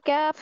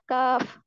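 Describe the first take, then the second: First: The vowel is drawn toward an 'ai' sound. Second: The vowel is a plain, simple 'a' sound. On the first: The speaker calls it wrong. "इसको कैफ नहीं करना" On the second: The speaker calls it right. "बस सिंपल"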